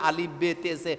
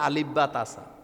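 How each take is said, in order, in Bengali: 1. অক্ষরগুলোর নাম উর্দু স্বরধ্বনি দিয়ে বলা হয়। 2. অক্ষরগুলোর নাম আরবি স্বরধ্বনি দিয়ে বলা হয়। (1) "এই আলিফ বে তেসে এটা হলো মূলত উর্দু" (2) "আলিফ বা তাসা এটা হলো কি আরবি"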